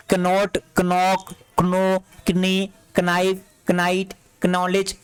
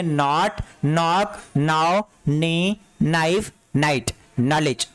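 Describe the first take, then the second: First: Each word slow and separate, "कनॉट" as k-not, "knowledge" as k-nowledge; wrongly voiced silent K. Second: "knowledge" said as nollij, each word in the list set apart; correct silent K. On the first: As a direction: sound a K before the N in "कनॉट", "कनॉक", "कनाइव". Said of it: "ये नहीं पढ़ेंगे". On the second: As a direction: start "knock", "knee", "knife" straight on N, no K. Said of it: "आप इसको पढ़ेंगे". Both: Shown as a demonstration.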